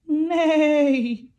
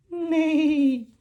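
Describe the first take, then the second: No difference in how they are said.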